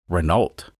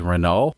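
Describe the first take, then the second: First: It is pronounced in an American way. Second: It is pronounced in a French-like way. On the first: "as we say in America" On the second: "the correct way to say it is Renault or something like that"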